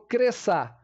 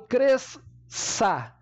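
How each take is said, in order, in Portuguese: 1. Apenas um som de "s" é pronunciado no meio. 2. Dois sons de "s" separados são pronunciados no meio. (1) "eu falo cresça" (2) "Eu não falo cresça"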